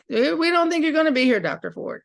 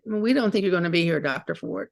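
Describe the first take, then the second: First: Higher and louder, quick mock of her voice; imitating a refugee woman. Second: Said in the usual way. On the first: Refugee woman warning the doctor, in an imitated voice. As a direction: put on the woman's voice, starting with a lifted "Eh". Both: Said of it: "one of the women said".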